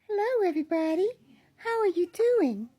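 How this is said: The voice is pitched very high, childlike. "Or I can go higher"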